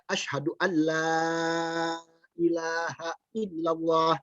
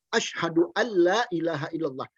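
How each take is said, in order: First: The vowel in la is long. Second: The vowel in la is short. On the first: It keeps the meaning of negation. The speaker calls it right. "Mestinya dia baca" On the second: It no longer means a negation. The speaker calls it wrong. "La-nya tidak ada matnya"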